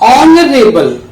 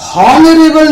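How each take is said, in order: First: The word starts with a vowel, no h sound. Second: The word starts with an audible h sound. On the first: The speaker calls it right. "इसमें भी एच silent है" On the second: The speaker calls it wrong. "हॉनरेबल नहीं है ये"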